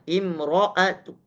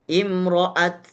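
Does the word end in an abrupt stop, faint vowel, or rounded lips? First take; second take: faint vowel; abrupt stop. First: A faint short vowel follows the final t. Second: The final t is closed with no vowel. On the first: "Raum tetap dibaca harokatnya" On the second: "disukunkan seperti biasa"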